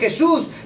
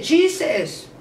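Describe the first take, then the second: First: The name is pronounced the Spanish way. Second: The name is pronounced the English way. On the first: "en español se dice Jesús" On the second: "en inglés, ¿cómo se dice Jesús? Se dice Jesus"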